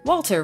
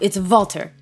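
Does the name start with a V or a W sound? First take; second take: W sound; V sound. First: The name starts with a W sound. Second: The name starts with a V sound. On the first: The speaker calls it wrong. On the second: The speaker calls it right.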